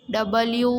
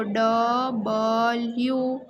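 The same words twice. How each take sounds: First: Said in the usual way. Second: ડબલ્યુ drawn out slowly in separate syllables. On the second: Shown as a demonstration. Teacher dictating how to write the sound, ડબલ્યુ slowly syllable by syllable. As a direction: break ડબલ્યુ into long, slow, spaced syllables. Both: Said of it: "ઉચ્ચાર લખો".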